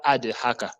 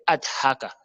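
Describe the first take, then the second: First: Adhaka as "ade-haka", a vowel after D; wrong released D. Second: Adhaka as "ad-haka", D shut with no vowel; correct unbounced D. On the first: Teacher showing the mistake, D wrongly bounced. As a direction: bounce the D into a schwa before haka. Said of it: "Ce n'est pas adhaka". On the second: Teacher correcting learners, D stopped without bounce. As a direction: close on ad, then breathe haka. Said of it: "c'est adhaka". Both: Shown as a demonstration.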